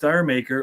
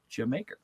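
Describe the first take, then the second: First: It sounds like the words dire maker. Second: It sounds like the word Jamaica. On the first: This is how most people say it. "nobody says that. They all say Dire Maker" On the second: This is the intended way to say it. "That is the way you say it"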